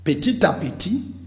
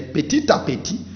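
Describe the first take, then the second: First: The final consonant links into the next word. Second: The same.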